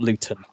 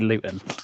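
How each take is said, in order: First: The middle T is a clear T. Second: The middle T is a glottal stop. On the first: "not Luton" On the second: "people from Luton will put a glottal stop on the T in the middle of words. Okay, I say Luton"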